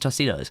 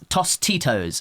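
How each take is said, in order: First: It is said in an American-sounding accent. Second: It is said in a non-American accent. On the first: The speaker picked it up from people around them. "because I was around so many Americans" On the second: This is the speaker's own usual pronunciation. "how I pronounce it in my accent"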